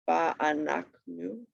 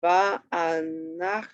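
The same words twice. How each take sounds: First: "Va'anachnu" slow but more connected; syllables joined. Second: VA'ANACHNU slow, in separate syllables. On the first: Teacher repeating the example, "Va'anachnu" slowly joined up. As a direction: say "Va'anachnu" as one measured word. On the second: Teacher showing where the accent is, "Va'anachnu" slowly broken up. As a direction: sound out "Va'anachnu" piece by piece. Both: Shown as a demonstration. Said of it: "kind of where the, um, accent is".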